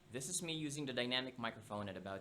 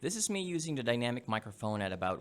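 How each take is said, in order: First: The voice is recorded about two feet away. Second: The voice is recorded about one foot away. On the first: "at about two feet away" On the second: "at about one feet away"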